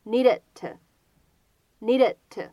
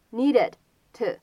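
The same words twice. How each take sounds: First: "needed to" with the final D held silently before "to"; no burst on the last D of "needed to"; unreleased D. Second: Said in the usual way. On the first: Shown as a demonstration. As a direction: model "needed to" slowly as nee-de(d)-to. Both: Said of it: "有一个失去爆破的现象".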